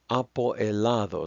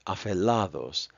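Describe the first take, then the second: First: The word is said in full, five syllables. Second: The vowel is dropped, two words run together. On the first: "so that's five syllables" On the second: "two words now sound like one"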